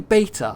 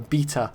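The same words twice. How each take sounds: First: The word is said with an American pronunciation. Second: The word is said with a British pronunciation. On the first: "I always say Beta" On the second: "the proper British pronunciation is uh, Beta"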